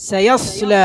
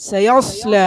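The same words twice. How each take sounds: The two takes are said the same way.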